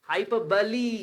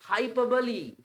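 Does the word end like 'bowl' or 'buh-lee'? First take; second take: buh-lee; buh-lee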